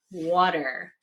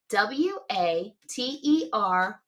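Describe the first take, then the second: First: Said in the usual way. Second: Slow, tapping out each letter; spelled letter by letter. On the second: Shown as a demonstration. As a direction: spell water one letter at a time. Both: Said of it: "Watch me".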